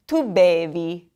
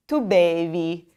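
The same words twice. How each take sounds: First: Tu bevi, clear; too BEH-vee; teacher modeling tu bevi; model for repeating. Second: Tu bevi again; too BEH-vee once more; repeat for class. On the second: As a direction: repetition of tu bevi. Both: Shown as a demonstration.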